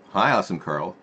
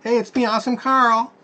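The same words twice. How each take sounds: First: Said in the usual way. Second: Very high put-on cartoon voice, louder; Awesome Carl voice. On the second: Host greets viewers as the silly Awesome Carl character. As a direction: squeak it out like a goofy puppet.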